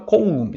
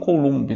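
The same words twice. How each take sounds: First: The name is pronounced the French way. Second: The name is pronounced in a non-French way. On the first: The scientist was French. The speaker calls it right. "o cara era francês, a gente fala Coulomb" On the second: Some people say it this way. The speaker calls it wrong. "Não Coulomb, né? Como algumas pessoas falam"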